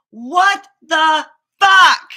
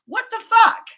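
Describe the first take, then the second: First: Slow, loud, stretched cry of disbelief; drawn-out exasperated yell. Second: Sharp high cry of disbelief; exasperated outburst. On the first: Venting to camera about her stomach, a slow loud yell. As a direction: drag it out loud and anguished. Repeated outburst, louder, drawn out. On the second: Upset about her body, a loud exasperated cry. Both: Real, not acted.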